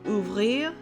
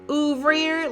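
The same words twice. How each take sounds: First: It is said with a French accent. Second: It is said with an American accent. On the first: The speaker calls it right. "she had a beautiful French accent" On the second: The speaker calls it wrong. "an Austrian background from Texas"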